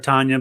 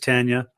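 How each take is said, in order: First: The first syllable does not sound like 'tan'. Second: The first syllable sounds like 'tan'. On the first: The speaker calls it wrong. "the most common pronunciation is people call her Tanya" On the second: The speaker calls it right. "but it is Tanya"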